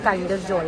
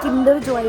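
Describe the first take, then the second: First: The first syllable sounds like 'kine'. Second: The first syllable sounds like 'kin'. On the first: The speaker calls it right. "It's pronounced as काइंडर Joy" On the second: The speaker calls it wrong. "अगर किसी को लगता है किंडर Joy है, no"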